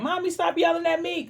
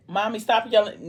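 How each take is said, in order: First: Put-on pitched way up like a little kid begging Mommy; whiny kid voice. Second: Said in the usual way. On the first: Quoting the kid in the recap, high childish whine. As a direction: whine it like a child being scolded. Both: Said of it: "Now, sorry, done got it".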